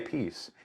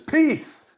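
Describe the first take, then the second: First: The word is said plainly and calmly. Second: The word is yelled as an exclamation.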